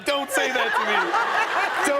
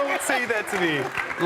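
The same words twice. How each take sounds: First: Overwhelmed plea. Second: Tearful plea. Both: Retold or imitated. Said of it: "I started crying again".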